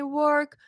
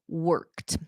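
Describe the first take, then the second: First: The word ends without a final t sound. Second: The word ends with a clear final t sound. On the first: The speaker calls it wrong. "it will sound like a grammar mistake when in the end of the day is actually a pronunciation mistake" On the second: The speaker calls it right. "pronounce your E Ds"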